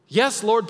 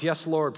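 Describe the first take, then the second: First: Much louder and higher; loud pleading answer. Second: Said in the usual way. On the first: Acted. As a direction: cry it out, pushed and pleading. Repeated answer, pressed.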